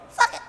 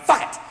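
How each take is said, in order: First: Tiny high echo of a cursing dad; high-pitched, small child voice; little child. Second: Said in the usual way. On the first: Retold or imitated. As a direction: imitate a toddler parroting a swear. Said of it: "I heard a voice go". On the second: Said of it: "I went".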